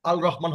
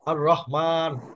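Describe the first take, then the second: First: The l sound is pronounced before the r. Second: The l blends into a doubled r sound. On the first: The speaker calls it wrong. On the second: The speaker calls it right.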